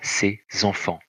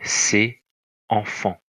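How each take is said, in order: First: The two words are linked with a z sound. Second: The two words are said without a linking z. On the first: "ça se prononce" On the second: "ça s'écrit"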